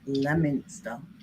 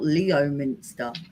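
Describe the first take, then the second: First: The name is said in a shortened form. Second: The name is said in full, as spelled. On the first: This is how locals actually say the name. The speaker calls it right. "and it's L- Leominster" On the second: This is only how the name is written. The speaker calls it wrong. "it's spelt Leo Minster"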